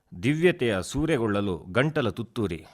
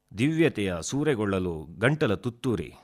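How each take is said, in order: No difference in how they are said.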